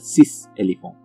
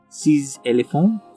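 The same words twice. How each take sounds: First: Six ends in an s sound, not linked. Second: Six ends in a z sound, linked on. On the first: The speaker calls it wrong. "instead of" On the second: The speaker calls it right. "So it would be ... Sis has that z sound"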